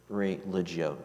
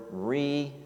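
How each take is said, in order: First: "religio" with g like j; Latin with soft g. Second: "religio" with g as in "go"; Latin with hard g. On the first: Preacher offering another Latin pronunciation, "religio" with soft g. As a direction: say "religio" as ree-LIDGE-ee-oh, soft g. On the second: Preacher breaking down a Latin root, "religio" with hard g. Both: Shown as a demonstration. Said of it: "depending upon how you pronounce Latin".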